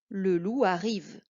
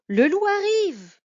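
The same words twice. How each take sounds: First: The voice falls at the end. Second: It is exclaimed with fear.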